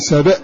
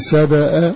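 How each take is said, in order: First: The final hamza carries no vowel at all. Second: The final hamza takes a plain 'a' vowel. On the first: "بتسكين الهمزة" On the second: "افتح دون نون"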